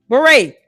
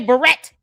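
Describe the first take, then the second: First: The word is pronounced as beret, ending in 'ay'. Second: The word is pronounced like the name Barrett. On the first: The speaker calls it right. "pronounce that word correctly" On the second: The speaker calls it wrong. "She wants to say Barrett"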